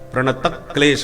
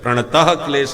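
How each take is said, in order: First: The k is doubled, with stress before it. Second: An h-like breath follows the final vowel. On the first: The speaker calls it right. "प्रणतक क्लेश है" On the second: The speaker calls it wrong. "प्रणतः क्लेश नहीं"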